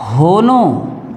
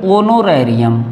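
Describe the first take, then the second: First: होनोरेरियम said with a sounded h at the start; mock the wrong reading होनोरेरियम with a clear h. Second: ओनोरेरियम begun on a clean o, no h; silent h. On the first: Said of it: "नहीं पढ़ेंगे". (ह बोलकर गलत उच्चारण होनोरेरियम) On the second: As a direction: correct reading ओनोरेरियम without h. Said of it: "इस ह को हम पढ़ेंगे ओनोरेरियम". (सही उच्चारण ओनोरेरियम, ह नहीं) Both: Shown as a demonstration.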